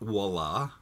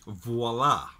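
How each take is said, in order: First: The word begins with a W sound. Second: The word begins with a V sound. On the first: The speaker calls it wrong. "it's not voila, which a lot of people say" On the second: The speaker calls it right. "it's voila with a V"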